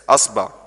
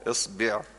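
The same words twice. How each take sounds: First: The word begins with an a vowel. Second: The word begins with an i vowel. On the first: "الألف مفتوحة هي، وافتح الباء كمان" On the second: "اكسر الهمزة"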